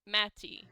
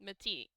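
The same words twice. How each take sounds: First: "Matty" with a loud first syllable, MAT-ee; stress on first syllable. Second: "Matty" stressed on the end, ma-TEE; stress on second syllable. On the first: Game master trying out a name, "Matty" stressed as MAT-ee. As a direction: punch the start of "Matty": MAT-ee. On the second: Game master trying out a name, "Matty" stressed as ma-TEE. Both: Shown as a demonstration. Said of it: "some combination of syllables starting with an M".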